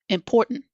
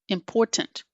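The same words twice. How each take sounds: First: The middle T is a glottal stop. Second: The middle T is released strongly. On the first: The speaker calls it right. "I would suggest getting used to this glottal T sound" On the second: The speaker calls it wrong. "it sounds very strange for us to hear someone saying the T so strongly"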